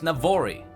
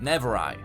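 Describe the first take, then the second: First: The name is said as Navori. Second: The name is said as Nevorai. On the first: The speaker calls it right. "is pronounced Navori" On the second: The speaker calls it wrong. "I mistakenly pronounced it Nevorai"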